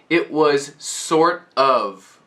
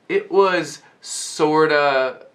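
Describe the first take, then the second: First: Both words are said fully, with a clear F. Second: The words blend into 'sorta' with no F sound. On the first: "right now I'm pronouncing it very clearly with perfect pronunciation" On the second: "these turn into sorta and kinda without pronouncing the F"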